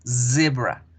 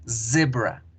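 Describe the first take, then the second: Both takes have the same delivery.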